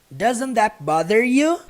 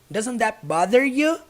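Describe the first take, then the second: The two takes are said the same way.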